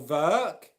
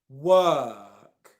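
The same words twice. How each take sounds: First: It begins with a V sound. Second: It begins with a W sound. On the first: The speaker calls it wrong. "It's not ver or world or work" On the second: The speaker calls it right. "It's world, work"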